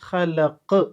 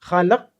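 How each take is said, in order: First: The final q is released with a clear bounce. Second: The final q stops flat without a bounce. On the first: The speaker calls it right. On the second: The speaker calls it wrong.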